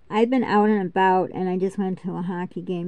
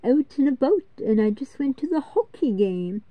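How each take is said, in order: First: It is spoken with a plain voice. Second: It is spoken with a nasal voice.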